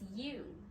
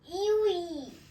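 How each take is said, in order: First: The word is said as one syllable. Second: The word is said as two syllables. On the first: The speaker calls it right. "it's actually pronounced you" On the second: The speaker calls it wrong. "I thought it was iwi as well"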